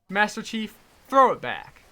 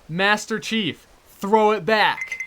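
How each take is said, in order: First: The command is spoken quickly. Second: The command is spoken slowly and deliberately.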